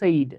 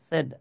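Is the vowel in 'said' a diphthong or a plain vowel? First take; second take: diphthong; plain vowel. First: The vowel glides like 'ay' in 'sayd'. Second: The vowel is a short plain 'e' sound. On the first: The speaker calls it wrong. "আমাদের অনেকেরই একটা ভুল ধারণা, এই সেড এর উচ্চারণ হচ্ছে সেইড, সেইড না কিন্তু" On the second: The speaker calls it right. "হ্যাঁ সেড"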